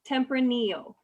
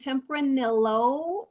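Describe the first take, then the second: First: The double L sounds as in tortilla. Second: The double L sounds unlike in tortilla. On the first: The speaker calls it right. "it's kind of like tortilla" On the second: The speaker calls it wrong. "we don't say Tempranillo"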